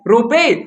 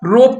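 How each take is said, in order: First: An extra vowel follows the final consonant. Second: The word ends on the bare consonant. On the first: The speaker calls it wrong. "नहीं" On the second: The speaker calls it right. "रोप पढ़ना है"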